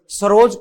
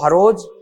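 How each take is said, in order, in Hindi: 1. यह शब्द स की ध्वनि से शुरू होता है। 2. यह शब्द ह की ध्वनि से शुरू होता है। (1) "नागौर में स की जगह है" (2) "नागौर में स की जगह है"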